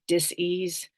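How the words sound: The word is split into two separate parts. It means an imbalance or discomfort in the body. "I want to say dis-ease, D I S dash ease"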